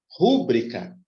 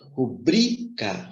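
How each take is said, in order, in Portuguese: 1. A sílaba tônica está na primeira sílaba. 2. A sílaba tônica está na segunda sílaba. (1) "como se fosse proparoxia" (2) "essa palavra é uma paroxítona"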